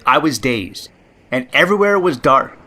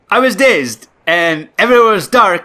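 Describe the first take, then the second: First: It is spoken in the speaker's own natural accent. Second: It is spoken in a put-on African-Caribbean-style accent.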